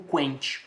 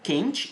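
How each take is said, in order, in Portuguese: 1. Começa com som de kw, o u se ouve. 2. Começa com k simples, o u fica mudo. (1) "eu não digo quente" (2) "eu digo quente e quinto, ou seja, forma dígrafo"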